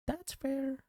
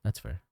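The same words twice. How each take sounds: First: Much higher, soft squeak; squeaky high voice. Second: Said in the usual way. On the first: Pretend. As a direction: squeak it out playfully. Repeats phrase in squeaky voice.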